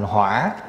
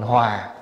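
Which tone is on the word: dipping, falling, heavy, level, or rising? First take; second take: dipping; falling. First: The word is said with a dipping tone. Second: The word is said with a falling tone. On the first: Fire. "lại đi để dấu hỏi vô, thành hỏa" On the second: Harmony. "Bỏ dấu huyền vô thành hòa"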